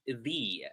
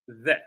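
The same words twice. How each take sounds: First: The vowel is a long 'ee' sound. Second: The vowel is a short, weak 'uh' sound. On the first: A vowel follows. "When it's followed by a vowel, we pronounce it the" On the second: A consonant follows. "followed by a a, a consonant, we pronounce it the the"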